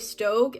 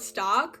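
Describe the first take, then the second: First: It is said with the vowel of 'stoke'. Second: It is said with the vowel of 'stock'. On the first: The speaker calls it right. "everybody would say Stoke" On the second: The speaker calls it wrong. "I always used to call it stock"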